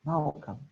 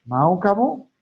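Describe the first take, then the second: First: Softer repeat. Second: Raised, rising challenge to the crowd; louder question. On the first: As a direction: drop it down to a soft murmur. Preacher repeats the question quietly. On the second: Preacher challenging the congregation, loud rising question. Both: Acted.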